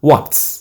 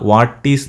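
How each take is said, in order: First: It is said as one contracted word. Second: It is said as two separate full words. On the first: "short വാട്ട്സ്" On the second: "വാട്ട് ഈസ് എന്നുള്ളതിന്"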